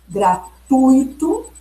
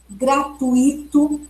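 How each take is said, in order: First: The stress is on the second syllable. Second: The stress is on the third syllable. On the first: This is the standard form. The speaker calls it right. "A pronúncia considerada correta é" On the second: This is how many people say it. The speaker calls it wrong. "Há pessoas que dizem"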